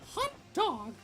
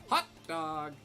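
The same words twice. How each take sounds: First: It is said in a squeaky cartoon-mouse voice. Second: It is said in an old-film hero's voice. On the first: "I envision it in a Mickey Mouse voice" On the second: "I just envision George Bailey from It's a Wonderful Life"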